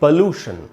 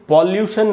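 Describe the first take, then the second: First: The first vowel sounds like 'oh'. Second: The first vowel sounds like 'aw'. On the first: The speaker calls it right. "हम इसको पढ़ेंगे पोल्यूशन" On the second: The speaker calls it wrong. "पॉल्यूशन नहीं पढ़ेंगे"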